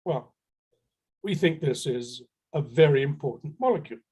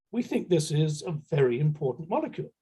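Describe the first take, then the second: First: Most serious voice. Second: Said in the usual way. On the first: Retold or imitated. Bluffing seller answers the buyers in a mock serious voice. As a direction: sound solemn to bluff it out. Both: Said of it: "put on my most serious voice".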